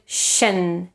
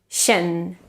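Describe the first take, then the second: No difference in how they are said.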